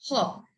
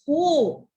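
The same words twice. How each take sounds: First: "hop" with a short, quick o; short vowel. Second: "ho" with a long oh, as in hope; long vowel. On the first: Teacher reading word before magic E, short vowel. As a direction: blend "hop" with a brief vowel. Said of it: "the short vowel". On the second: Teacher showing magic E at work, long O. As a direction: stretch the o into its letter name. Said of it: "to its letter name". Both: Shown as a demonstration.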